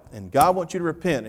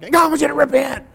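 First: Said in the usual way. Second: Much higher, louder and faster, fiery preaching; a hammed-up fired-up preacher. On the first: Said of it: "I didn't say it like that". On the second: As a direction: copy the interpreter's passion and blast it. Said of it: "I did get kind of fired up".

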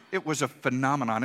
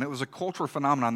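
First: Said in the usual way. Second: "cultural" leaned on, said quickly with a fall; stress on cultural. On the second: Shown as a demonstration. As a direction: hit the word "cultural" hard and push through fast.

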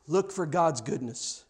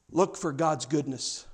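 Both takes have the same delivery.

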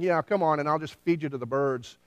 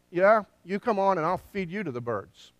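First: Lightly voiced taunt; Goliath's trash talk. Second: Imitated defiant retort, settling toward the end; David's retort. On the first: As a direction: imitate a casual challenge, stress on COME. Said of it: "as Goliath is saying". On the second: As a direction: throw the taunt right back, punching "Yeah". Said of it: "David says to this guy".

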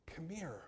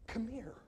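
First: Breathy whisper, softly calling someone close; whispered invitation. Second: Higher tender call. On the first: Preacher voicing Jesus to the congregation, whispering. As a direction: whisper it as if to a small child. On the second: Preacher voicing Jesus calling the weary, high and gentle. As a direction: coax a weeping toddler higher and softer. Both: Shown as a demonstration. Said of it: "Jesus literally says".

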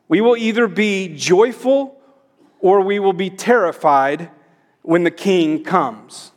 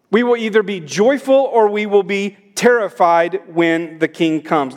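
First: Joyful and terrified set apart by pauses, King stressed with a falling close; slow emphatic pauses. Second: Said in the usual way. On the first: Shown as a demonstration. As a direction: spell it out slowly, pausing between clauses.

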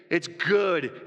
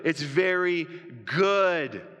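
First: Said in the usual way. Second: "very" leaned on, "good." drawn out long; stress on very good. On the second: Shown as a demonstration. Pastor savouring God's verdict, drawn-out "good.". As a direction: stretch out "good." to crown it.

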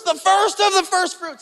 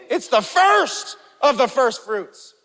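First: Much higher, "of" stressed; excited preacher stressing "the first of the first"; extra emphasis. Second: Slow, "first" hit each time; deliberate emphasis on both "first"s; stress on first. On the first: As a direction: punch "of" between the "first"s. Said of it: "He's like, extra, extra emphasis". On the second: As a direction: press "first" in "the first of the first fruits". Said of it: "really putting an emphasis there". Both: Shown as a demonstration.

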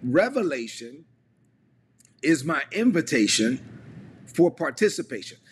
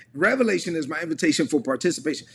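First: Slow, with long pauses after REVELATION and INVITATION; measured phrase-by-phrase delivery, pausing before "for participation"; slow dictation. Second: Said in the usual way. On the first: Shown as a demonstration. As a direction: dictate it in three chunks for people typing. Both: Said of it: "put it this way in the chat".

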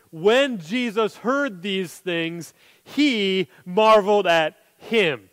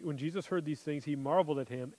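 First: Very slow, weighing every word; slow deliberate reading. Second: Much softer, almost to himself; hushed rereading. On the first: Preacher pointing the congregation to verse nine, slow and deliberate. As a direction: read it out as something to savour. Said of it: "Notice verse nine". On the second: Preacher quietly rereading the verse to the congregation, hushed. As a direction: drop the voice right down, reflective. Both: Shown as a demonstration.

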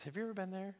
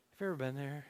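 First: Soft question. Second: Said in the usual way. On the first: Shown as a demonstration. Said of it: "repeated question, softer then plain". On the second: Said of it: "repeated question".

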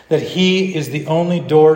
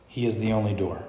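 First: Raised, emphatic declaration; firm claim. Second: Lower, softer careful statement; hushed claim. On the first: Preacher dares the church to say it, emphatic. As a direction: declare it boldly to the room. Same claim, repeated with force. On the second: Preacher voices the hard thing to say, hushed. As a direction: say it low, as something daring. Dared claim, said softly first. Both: Acted.

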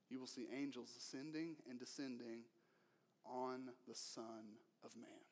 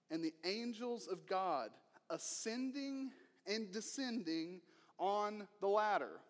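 First: The correct reading. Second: Said in the usual way. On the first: Shown as a demonstration. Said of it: "that's not what he says". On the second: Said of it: "No, that's not what he says".

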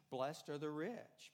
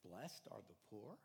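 First: Slow, weighty "Blessed are the rich"; emphatic. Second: Low, soft, deliberately dull reading; flat and unimpressive. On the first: Preacher proclaiming the worldly version, slow and weighty. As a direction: lean slowly on "rich" with a falling close. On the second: Preacher reading the verse without pizzazz, dull and soft. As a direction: read it with no pizzazz at all. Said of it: "could have had a little more pizzazz". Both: Shown as a demonstration.

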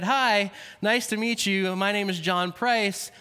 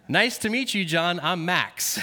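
First: Said in the usual way. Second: Put-on a light French-Canadian accent, lifted on meet; hint of French-Canadian accent introducing himself. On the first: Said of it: "And I said". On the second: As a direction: lightly imitate a French-Canadian hockey player's greeting. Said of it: "in a French-Canadian accent".

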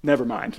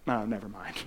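First: A quick, resigned "Never mind"; deflated give-up. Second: A softer, lower, defeated "Oh, never mind"; dejected give-up. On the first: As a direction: shrug it off as if giving up. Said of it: "John Krasinski's just like". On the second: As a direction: let it drop, beaten before trying. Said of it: "I'm like". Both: Retold or imitated.

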